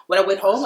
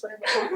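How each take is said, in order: First: Said in the usual way. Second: Much higher, softer voice, put on; demonstrating a light, high voice; lightened voice. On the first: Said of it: "tried to lighten my voice". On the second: Shown as a demonstration. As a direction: lighten the voice, pitched right up. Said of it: "I tried to lighten my voice".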